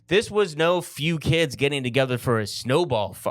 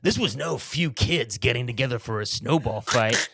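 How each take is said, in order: First: It is said in his own natural voice. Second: It is said in a changed, put-on voice.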